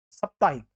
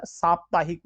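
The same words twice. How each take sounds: First: साप्ताहिक with short first vowel, saptaahik; साप्ताहिक begun as "sup"; wrong short vowel. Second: साप्ताहिक with long "saa" at the start; साप्ताहिक said as SAAP-taa-hik; correct long vowel. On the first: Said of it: "यहाँ पे साप्ताहिक नहीं होता". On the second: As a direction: stretch the first vowel of साप्ताहिक. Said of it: "साप्ताहिक होता है". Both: Shown as a demonstration.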